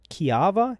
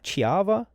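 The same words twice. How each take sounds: First: Kiava begun with a hard K; tentative reading. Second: Chiava begun with a CH sound, pitched higher; tentative reading. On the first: Host puzzling out a tattoo, saying Kiava with a K. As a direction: try Kiava as "kee-AH-va". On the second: Host puzzling out a tattoo, saying Chiava with CH, higher. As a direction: try Chiava as "chee-AH-va", higher. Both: Shown as a demonstration. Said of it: "what does that say?".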